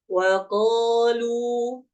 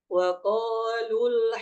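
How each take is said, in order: First: The final vowel is long before a stop. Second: The final vowel is short, linked to the next word. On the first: "kita baca berhenti ya. ... dua harokat" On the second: "ketika disambung, maka ya, mat tersebut tidak akan dibaca panjang"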